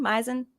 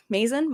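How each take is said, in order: First: "Mazin" said MY-zin, a second guess; "Mazin" as MY-zin, questioning; unsure pronunciation. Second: "Mazin" said MAY-zin, as a question; unsure pronunciation. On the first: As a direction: try "Mazin" with an eye vowel in front. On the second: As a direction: try "Mazin" with a long A, like maze. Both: Shown as a demonstration. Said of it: "I don't know how to say his name".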